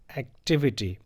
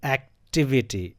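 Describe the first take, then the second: First: Said in the usual way. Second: "activity" said slowly, the second syllable TI stressed; slow model "activity" with weight on TI. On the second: Shown as a demonstration. Teacher modelling the correct stress for students, slow and stressed. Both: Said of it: "this will be pronounced as".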